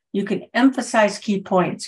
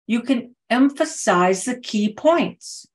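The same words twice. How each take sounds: First: Quicker take, light punch on EMPHASIZE and KEY; lighter staccato emphasis. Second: Slow staccato, EMPHASIZE and KEY POINTS picked out higher; staccato emphasis. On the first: Coach repeating the point to speakers, lightly emphatic. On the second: Coach demonstrating vocal variety to speakers, staccato emphasis. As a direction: punch out EMPHASIZE, KEY, POINTS in separate beats. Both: Shown as a demonstration. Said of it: "a little bit of staccato in my voice".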